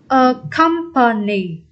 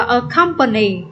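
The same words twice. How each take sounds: First: "A company" slowly in separate syllables; slow demonstration. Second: Said in the usual way. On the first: Shown as a demonstration. Teacher repeating the option for students, slow demonstration. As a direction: spell out "A company" sound by sound.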